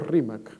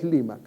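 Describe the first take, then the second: First: The word begins with an R sound. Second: The word begins with an L sound. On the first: This is the highland Quechua form. "no es Limac para alguien de la sierra, sino Rimac" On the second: This is the coastal Quechua form. "el quechua de la costa es Limac"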